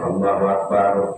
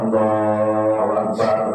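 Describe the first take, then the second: First: The phrase is said short and quick. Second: The phrase is drawn out longer.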